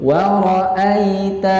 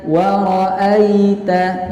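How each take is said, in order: First: The word is said in a gentle, soft way. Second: The word is said in a gentle, soft way.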